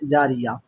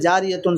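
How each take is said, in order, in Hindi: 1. शब्द एक silent h ध्वनि से खत्म होता है। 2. शब्द -tun ध्वनि से खत्म होता है।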